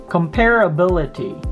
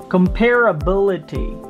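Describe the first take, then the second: No difference in how they are said.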